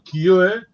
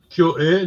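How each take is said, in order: First: The two vowels are merged into one syllable. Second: The two vowels are said as separate syllables. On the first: The speaker calls it right. "vai unir logo" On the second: The speaker calls it wrong. "em vez de ler Kyo é"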